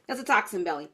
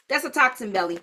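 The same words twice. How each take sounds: First: "toxin belly" said again lower and softer, driving it home; lower, softer repeat. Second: Said in the usual way. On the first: Shown as a demonstration. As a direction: drop the voice and let "toxin belly" land.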